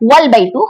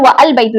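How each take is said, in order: First: 'Wa' runs straight into 'l' without a stop. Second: A glottal stop separates 'wa' from 'al'. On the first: The speaker calls it right. "बल्कि व वल बैतु हो गया" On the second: The speaker calls it wrong. "व अल बैतु नहीं"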